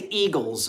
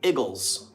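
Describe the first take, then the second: First: The word is said with a standard pronunciation. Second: The word is said with the local pronunciation. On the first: This is how the speaker says it. "they don't say Eagles around here" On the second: This is how people around here say it. "they say Eagles"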